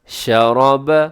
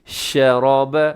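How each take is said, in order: The two takes are said the same way.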